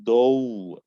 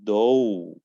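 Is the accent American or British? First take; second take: American; American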